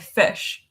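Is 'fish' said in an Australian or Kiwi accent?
Kiwi. It is said in a New Zealand accent.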